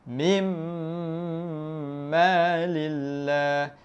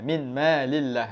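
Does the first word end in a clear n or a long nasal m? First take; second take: long nasal m; clear n. First: The n merges into a long nasal m. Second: The n is pronounced clearly before the m. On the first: "panjangkan sebab ada dengung. Dua harakat" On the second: "Dia ada bunyi nun"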